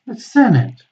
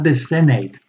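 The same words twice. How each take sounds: First: The last syllable has a reduced schwa vowel. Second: The last syllable has a full 'ate' vowel. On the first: The speaker calls it right. "this should be pronounced with a schwa" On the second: The speaker calls it wrong. "not the senate. No, that's incorrect"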